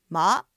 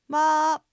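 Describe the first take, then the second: First: The pitch rises from low to high. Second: The pitch stays high and level throughout. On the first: "次に二声です。これは下から上に向かって上がります。" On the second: "最初に一声です。平板で音を伸ばします。"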